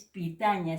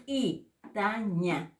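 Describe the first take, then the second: First: Said in the usual way. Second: Very slow PITAÑA, p popped apart from the vowel; glottalized P. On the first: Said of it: "Ya no es pitaña". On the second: Shown as a demonstration. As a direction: ejective p opening a stretched PITAÑA. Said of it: "que lo glotaliza".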